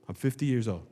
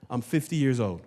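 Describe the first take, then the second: No difference in how they are said.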